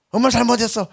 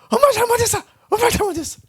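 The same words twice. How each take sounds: First: Said in the usual way. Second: Put-on much higher, whiny little boy begging; whimpering child. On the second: A little boy begging his mother mid-spanking, high and whiny. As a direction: squeak it out like a small boy caught. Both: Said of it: "우리 동네는 이제 부모와 자식 간에 좀 반말 섞어서".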